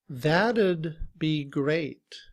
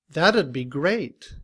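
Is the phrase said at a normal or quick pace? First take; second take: normal; quick. First: The phrase is said at a normal pace. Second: The phrase is said quickly.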